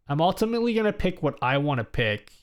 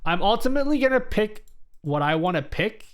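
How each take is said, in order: First: Said in the usual way. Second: Raised pitch, ending on a rising tune; rising take. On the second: Shown as a demonstration. Streamer telling chat about the vote, pitched high and rising. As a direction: lift it up and leave it hanging. Repeats line, rising then falling.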